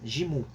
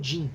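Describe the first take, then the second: First: The name ends in an added mu syllable. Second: The name ends in a plain n sound. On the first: The speaker calls it right. "no Japão, ele é considerado como pronunciado como mais Jimu" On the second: The speaker calls it wrong. "Não como Jin"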